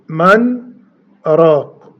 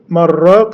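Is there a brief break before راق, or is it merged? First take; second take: break; merged. First: The n is heard, then a brief break. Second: The words merge, with no audible n sound. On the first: "بالسكت بيقول من راق وتظهر النون" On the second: "يدغم يعني يقول"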